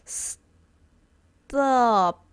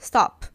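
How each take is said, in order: First: The word is said slowly and drawn out. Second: The word is said quickly and clipped short. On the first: "you say really slowly, like stop" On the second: "if you say it quickly, you won't hear it"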